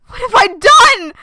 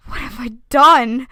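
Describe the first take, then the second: First: High loud despairing cry; anguished cry. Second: Said in the usual way. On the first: Acted. Character cries out after cutting herself. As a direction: cry out in horror. Repeated much louder.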